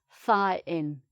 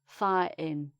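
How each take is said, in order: First: A glottal stop replaces the T, final G dropped. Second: A glottal stop replaces the T, final G dropped.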